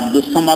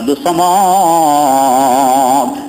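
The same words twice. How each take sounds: First: The name is said at normal length. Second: The name is stretched out with drawn vowels. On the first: The speaker calls it right. "আপনাকে আব্দুস সামাদ না বলি" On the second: The speaker calls it wrong. "যদি বলে আব্দুস সামাদ"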